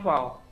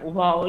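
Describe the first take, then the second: First: The name begins with a v sound. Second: The name begins with a w sound. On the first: This is the modern pronunciation. "modernnya wow" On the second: This is the classical pronunciation. "wow itu klasiknya"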